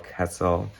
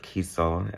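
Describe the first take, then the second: First: The first vowel is a short 'e' sound. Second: The first vowel is a long 'ee' sound. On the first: This may be the correct pronunciation. "Kessel seems more right" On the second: This is how the speaker used to say it. "as I used to call him"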